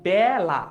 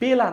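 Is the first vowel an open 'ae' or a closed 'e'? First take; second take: open ae; closed e. First: The first vowel is an open ae sound. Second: The first vowel is a closed e sound. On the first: The speaker calls it right. "এটার উচ্চারণ হচ্ছে বেলা" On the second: The speaker calls it wrong. "মানে এটার উচ্চারণ বেলা না"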